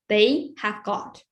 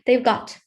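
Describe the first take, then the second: First: Have is said as a full separate word. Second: Have is reduced and joined to they.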